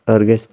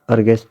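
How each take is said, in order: Both takes have the same delivery.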